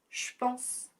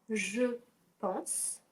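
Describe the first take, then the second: First: 'Je' is shortened to a 'sh' sound. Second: 'Je' is said in full with its vowel.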